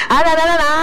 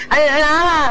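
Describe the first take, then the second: No difference in how they are said.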